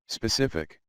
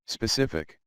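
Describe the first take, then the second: No difference in how they are said.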